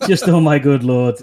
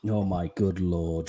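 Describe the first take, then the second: First: Louder and laughing through oh my good lord; chuckling oh my good lord. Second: Lower, slow, much softer, mock despair; drawn-out disbelieving oh my good lord; exasperated groan. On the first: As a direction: give in and laugh it out. Repeating it while laughing. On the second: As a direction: sink into it, unimpressed. Reacting to guest's drinking joke. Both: Real, not acted.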